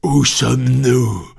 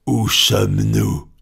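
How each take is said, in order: First: Louder, higher, slow furious repeat; red-faced angry shout. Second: A captain's fuming question; choking with anger. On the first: Furious captain repeats his question to Fogg, louder. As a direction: bellow it the second time, purple with rage. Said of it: "répéta-t-il, la face congestionnée". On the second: Captain Speedy choking with fury at Fogg. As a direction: sputter it out in rage. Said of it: "au milieu des suffocations de la colère". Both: A narrator's reading.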